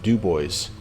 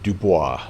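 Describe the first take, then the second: First: The name is said with an English pronunciation. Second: The name is said with a French pronunciation. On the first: This is how the locals say the town's name. "we in Wyoming we don't pronounce them like the French people would" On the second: This is how the word is said in French. "the French word Dubois"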